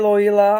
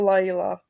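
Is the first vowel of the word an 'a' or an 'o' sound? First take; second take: o; a. First: The first vowel sounds like 'o'. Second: The first vowel sounds like 'a'. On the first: The speaker calls it wrong. "nečetl jste Loila" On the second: The speaker calls it right. "ale takhle je to Laila"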